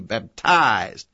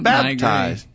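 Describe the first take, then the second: First: The stress is on the second syllable. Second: The stress is on the first syllable. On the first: "the first syllable was short and the emphasis was on the second syllable" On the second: "I say it with the accent on the first syllable"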